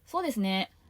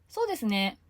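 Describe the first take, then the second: First: It is said curtly, in an uninterested tone. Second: It is said warmly, in an agreeing tone. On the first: I don't care about what you're saying. The speaker calls it wrong. "言い方がそっけないと" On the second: I think the same as you. The speaker calls it right. "同意している"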